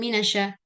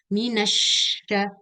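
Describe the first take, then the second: First: The sh sound is short, not doubled. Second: The sh sound is held long, doubled. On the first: The speaker calls it wrong. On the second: The speaker calls it right. "diberikan zaman syaddah"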